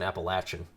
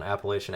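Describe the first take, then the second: First: "Appalachian" said with a short A and "latch", ap-uh-LATCH-un. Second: "Appalachian" said with a long A, "lay-shun". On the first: Host demonstrating the other way to say Appalachian. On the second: Host demonstrating one way to say Appalachian, long A. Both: Shown as a demonstration. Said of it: "that's another one".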